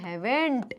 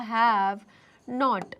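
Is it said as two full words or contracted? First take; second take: contracted; two words. First: It is said as one contracted word. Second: It is said as two full words. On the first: "fluency के लिए, इसको जल्दी जल्दी बोलने के लिए" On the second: "अगर हम इसको रीड करें तो वो कैसा होगा?"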